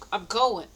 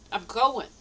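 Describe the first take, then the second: No difference in how they are said.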